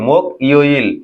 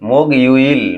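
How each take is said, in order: First: Each syllable is said separately, unlinked. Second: The syllables are linked together smoothly.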